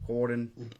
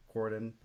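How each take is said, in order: First: Southern accent. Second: Said in the usual way. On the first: Shown as a demonstration. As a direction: say Corydon with a Southern twang. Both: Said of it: "I gotta use my southern accent".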